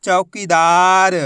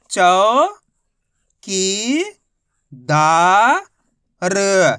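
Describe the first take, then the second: First: "चौकीदार" joined up, slow and loud, long "दा"; blended word, drawn out. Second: "चौ की दा र" each held long, a pause after each; syllable by syllable. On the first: Teacher joins the letters for learners, "चौकीदार" as one drawn-out word. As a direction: run "चौकीदार" together, stretching the vowels. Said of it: "तो मिलके बन जाएगा". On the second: Teacher models the method for learners, "चौ की दा र" syllable by syllable. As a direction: sound out "चौ की दा र" one by one. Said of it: "एक एक अक्षर का उच्चारण करके इनको पढ़ रहा हूँ". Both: Shown as a demonstration.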